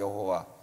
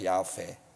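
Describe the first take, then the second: First: The name is said with three syllables, Yeh-ho-wa. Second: The name is said with two syllables, Yah-pe. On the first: "여호와는 원래 잘못된 발음이라 그랬죠" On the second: "그 자음만 읽으면"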